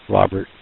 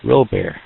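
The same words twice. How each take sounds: First: Said in the usual way. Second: Robert said French-style, ro-BAIR, final t silent; Robert as ro-BAIR, stress on the end, no t; mock-French Robert, ro-BAIR; French-style name. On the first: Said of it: "his name's Robert". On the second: Shown as a demonstration. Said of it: "throw the French in there".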